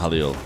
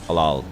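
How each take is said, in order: First: The second vowel is an 'ee' sound. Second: The second vowel is an 'ah' sound. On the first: The speaker calls it wrong. "Maybe it's not Halil" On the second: The speaker calls it right. "That didn't sound right. Halal"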